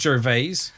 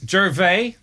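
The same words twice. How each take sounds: First: The name ends with an S sound. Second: The name ends without an S sound. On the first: The speaker calls it wrong. "not Gervais" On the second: The speaker calls it right. "You don't pronounce the S in Gervais"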